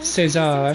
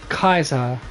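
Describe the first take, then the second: First: The name begins with an s sound. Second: The name begins with a k sound. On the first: "in the Spanish, Spanish and probably Portuguese way of saying it" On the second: "as it's pronounced in uh, uh, classic Roman"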